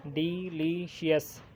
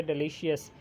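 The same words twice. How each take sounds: First: delicious drawn out slowly, each syllable separate; slow syllable count. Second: Said in the usual way. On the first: Shown as a demonstration. Teacher showing students the syllables, slow and careful. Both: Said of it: "three हैं".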